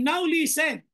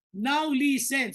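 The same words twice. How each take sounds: First: Said in the usual way. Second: Slow it right down and press each word; drawn-out urgent command; slow, emphatic. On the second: Shown as a demonstration. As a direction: make them really listen.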